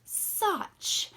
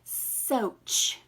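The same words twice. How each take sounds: First: "soch" with a short clipped vowel as in "such". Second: "soch" with a long o, as in "so". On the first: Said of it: "When it was closed, it said". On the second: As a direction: stretch the o into its name. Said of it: "this word would say". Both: Shown as a demonstration.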